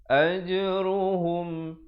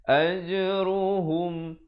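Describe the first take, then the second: The two takes are said the same way.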